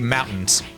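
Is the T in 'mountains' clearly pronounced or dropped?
dropped. The T in the middle is dropped. "they say mountains"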